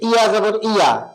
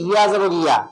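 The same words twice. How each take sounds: First: The ya sound is said tense and hard. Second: The ya sound is said relaxed and normal. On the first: The speaker calls it wrong. "একটু কঠিন করে" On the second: The speaker calls it right. "Normally বললে"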